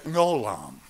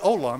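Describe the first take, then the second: First: The word begins with a throaty consonant sound. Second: The word begins directly with a vowel sound. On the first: The speaker calls it right. "you say gnolam" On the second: The speaker calls it wrong. "You don't say olam"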